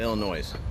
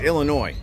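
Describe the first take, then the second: First: The final s is sounded. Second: The final s is silent. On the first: The speaker calls it wrong. "I'm one of them fools that put an S on it" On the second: The speaker calls it right. "It's Illinois"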